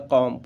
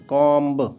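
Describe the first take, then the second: First: The word ends on m with no b. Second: The word ends with an audible b sound. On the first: The speaker calls it right. "उसको pronunciation में कॉम होता" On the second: The speaker calls it wrong. "वैसे normally जब जानकारी नहीं होती तो कॉम्ब करते हैं"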